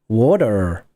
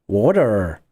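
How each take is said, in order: The two takes are said the same way.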